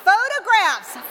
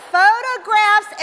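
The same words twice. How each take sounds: First: Said in the usual way. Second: Photographs drawn out slow and louder; stressed, slowed. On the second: Shown as a demonstration. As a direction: lean hard into photographs, slowly.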